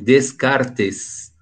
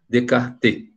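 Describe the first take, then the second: First: The s in the middle is pronounced. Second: The s in the middle is silent.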